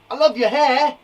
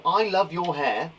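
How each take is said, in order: First: Loud, high, gushing compliment; exclamation. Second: Said in the usual way. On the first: Shown as a demonstration. Teacher showing what exclamation marks add, exclaiming. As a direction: exclaim it with big emphasis. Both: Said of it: "With an exclamation mark".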